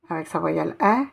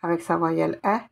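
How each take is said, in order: Both takes have the same delivery.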